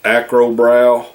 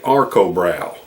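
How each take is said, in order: First: The R sound comes after the K sound. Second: The R sound comes before the K sound. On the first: The speaker calls it wrong. "I pronounced it wrong" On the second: The speaker calls it right. "it's actually Arcobrow"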